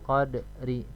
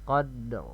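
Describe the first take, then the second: First: The word ends with a short i vowel. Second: The word ends on the consonant r. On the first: "huruf hidup"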